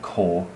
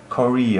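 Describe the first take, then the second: First: The name ends on a consonant, with no final vowel. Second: The name ends with an added final vowel. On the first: The speaker calls it wrong. "his horrible pronunciation" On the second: The speaker calls it right. "Kori, old man, not Kor"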